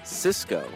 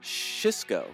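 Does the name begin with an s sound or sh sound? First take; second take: s; sh. First: The name begins with a plain s sound. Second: The name begins with a soft sh sound. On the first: "none other than Cisco" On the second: "or soft Shisco"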